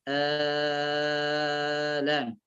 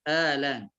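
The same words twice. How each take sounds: First: The opening vowel is held for six counts. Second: The opening vowel is held for two counts. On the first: "مدها ست حركات وهو المقدم" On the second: "قصرها حركتين"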